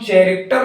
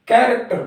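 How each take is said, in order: First: The word begins with a 'ch' sound. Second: The word begins with a 'k' sound. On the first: The speaker calls it wrong. "चैरेक्टर न पढ़ के" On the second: The speaker calls it right. "कैरेक्टर पढ़ते हैं"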